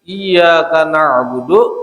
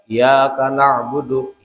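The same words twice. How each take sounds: First: The y sound is held and doubled. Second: The y sound is short and single. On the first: We worship You, God. The speaker calls it right. "menang kita bertasydid" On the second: We worship the light, meaning the sun. The speaker calls it wrong. "kada bertasydid, berarti dibaca kayak apa ya?"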